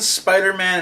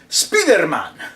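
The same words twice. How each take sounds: First: It is said with a plain English accent. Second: It is said with a Spanish accent, like Speedo.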